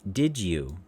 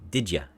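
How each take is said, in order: First: The word you is said in full. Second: The word you is reduced to ya. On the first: "The did you" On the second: "becomes reduced into the did ya"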